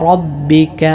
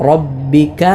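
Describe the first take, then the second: The two takes are said the same way.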